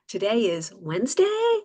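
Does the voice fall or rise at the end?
rise. The voice rises at the end. The speaker calls it wrong. "I'll demonstrate up talk"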